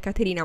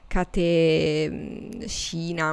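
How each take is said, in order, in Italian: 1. La r è una battuta semplice e dura. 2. La r è un suono più morbido, quasi sibilante. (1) "sicuramente non è Caterina" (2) "sarà un suono più morbido"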